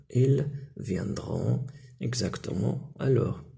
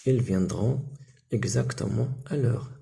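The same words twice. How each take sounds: First: Drawn far out, word by word; very slow model sentence. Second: Slowed, careful model answer; slow model sentence. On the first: Teacher repeating the answer very slowly for pupils. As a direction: stretch every syllable for the class. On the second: Teacher models the answer for pupils. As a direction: lay out each word for the class. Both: Shown as a demonstration. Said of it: "واش نقولوا؟".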